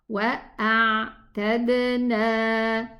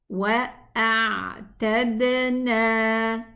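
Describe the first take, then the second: The two takes are said the same way.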